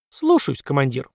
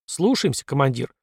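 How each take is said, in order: First: Singsong. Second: Said in the usual way. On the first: A narrator's reading. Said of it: "пропела Эпплгейт". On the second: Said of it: "ответил Дон".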